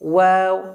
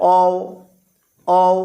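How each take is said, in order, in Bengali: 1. বর্ণটি একটি গোলাকার w উচ্চারণ দিয়ে শুরু হয়। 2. বর্ণটি একটি শুদ্ধ স্বরধ্বনি, w ছাড়া।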